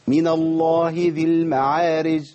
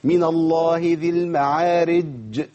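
First: The j sound is dropped entirely. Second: The j sound is held like a doubled consonant. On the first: "ما فيش جيم خالص لا" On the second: "كده شددت كاني اقف على مشدد"

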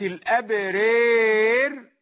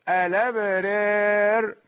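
First: The vowel before r leans strongly toward ee. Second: The vowel before r leans slightly toward ee. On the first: "إمالة كبرى" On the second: "تقليل"

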